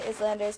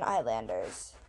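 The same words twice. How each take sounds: First: The first syllable sounds like 'iz', with the s. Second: The first syllable sounds like 'eye', without s. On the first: The speaker calls it right. "I literally say Islanders because it's so much easier to say" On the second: The speaker calls it wrong. "The pronunciation should be is, not I"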